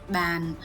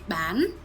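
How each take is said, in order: First: The pitch falls through the word. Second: The pitch rises through the word. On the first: It means table. "if we put a downtone" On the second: It means to sell. "If we put it with an uptone"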